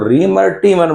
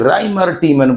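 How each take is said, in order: First: The first name starts with a 'ree' sound. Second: The first name starts with a 'rye' sound. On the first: "कोई इसको रीमर टीमन बोलता है" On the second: "कोई राइमर टीमन बोल सकता है"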